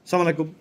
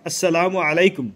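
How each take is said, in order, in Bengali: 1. সালামটির শুরুর 'আস' অংশটি বাদ পড়ে গেছে। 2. পূর্ণ সালামের প্রতিটি অংশ বলা হচ্ছে। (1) "এগুলা ব্যঙ্গ করা হয়" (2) "অন্তত এরকম এতটুকু বললে"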